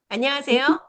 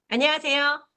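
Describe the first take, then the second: The two takes are said the same way.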